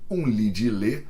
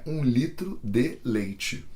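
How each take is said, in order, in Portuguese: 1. As palavras se juntam em poucas sílabas reduzidas. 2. Cada palavra é dita por inteiro e separadamente.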